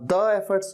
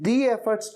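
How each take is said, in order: First: 'The' is pronounced 'thuh'. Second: 'The' is pronounced 'thee'. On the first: The speaker calls it wrong. "the efforts क्यों नहीं कहा" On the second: The speaker calls it right. "आपने the efforts क्यों कहा"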